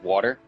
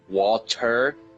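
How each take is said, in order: First: The word is said at normal speed. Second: The word is said slowly and drawn out.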